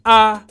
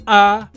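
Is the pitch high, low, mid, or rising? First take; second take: mid; mid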